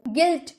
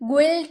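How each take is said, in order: First: The u is silent, plain g sound. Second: A w-like u sound follows the g. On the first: The speaker calls it right. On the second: The speaker calls it wrong. "गुइल्ट नहीं"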